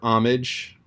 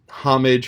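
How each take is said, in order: First: The word begins without any h sound. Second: The word begins with an audible h sound. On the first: "or can be silent" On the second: "the H can be pronounced"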